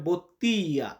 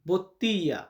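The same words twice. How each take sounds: First: The middle l sound is dropped, giving a y sound. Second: The same.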